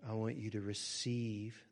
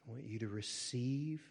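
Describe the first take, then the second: No difference in how they are said.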